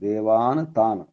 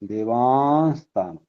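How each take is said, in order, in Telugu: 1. మొదటి పదం n తో ముగుస్తుంది, s లేదు. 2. రెండు పదాల మధ్య s శబ్దం కలుపుతుంది.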